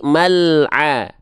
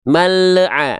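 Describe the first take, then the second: First: The l stops cleanly with no extra vowel. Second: The l bounces with a short extra vowel. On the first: The speaker calls it right. "Tapi mal'a. Nggak ada E-E-nya" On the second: The speaker calls it wrong. "Nggak juga"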